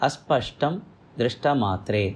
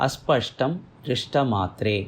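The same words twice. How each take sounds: The two takes are said the same way.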